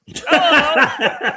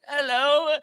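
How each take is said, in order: First: Put-on high, loud old lady hello with a laugh; hammed-up old lady, louder and higher; old person voice. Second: Put-on high, thin little old lady voice; a lightly voiced sweet old lady greeting; old person voice. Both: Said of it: "that's my old person voice".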